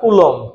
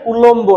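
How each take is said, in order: First: The word ends on the m sound. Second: The word ends with an audible b sound. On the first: The speaker calls it right. "না কুলম" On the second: The speaker calls it wrong. "অনেকে কুলম্ব বলে, হ্যাঁ কুলম্ব না"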